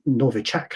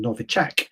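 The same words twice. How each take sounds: First: It is said with an English pronunciation. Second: It is said with a Russian pronunciation.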